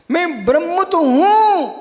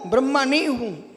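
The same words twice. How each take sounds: First: ब्रह्म with short ending, हूं drawn out strongly; emphatic affirmation. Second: ब्रह्मा with long aa, softer, हूं falling; dropped-back denial. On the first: Teacher affirming selfhood, slow stress on हूं. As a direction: stretch हूं after a short-ended ब्रह्म. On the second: Teacher denying being the creator, softer falling ब्रह्मा नहीं हूं. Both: Shown as a demonstration. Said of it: "दो शब्द बोल रहा हूं".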